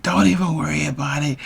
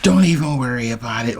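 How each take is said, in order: First: Higher-pitched, mildly miffed imitation; pissed girlfriend. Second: Said in the usual way. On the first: Girlfriend snapping back at his worry, mock pissed. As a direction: brush him off like an annoyed girlfriend, mock-miffed. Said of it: "Like, she gets pissed". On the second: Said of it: "like, she gets pissed".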